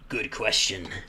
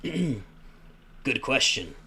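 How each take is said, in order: First: It is said in the speaker's natural voice. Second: It is said in a put-on Alhaitham voice.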